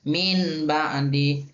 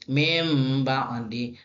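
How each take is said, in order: First: The first word ends with an n sound. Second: The first word ends with an m sound. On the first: The speaker calls it wrong. "Maka salah dibaca" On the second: The speaker calls it right. "bacaan yang benar adalah"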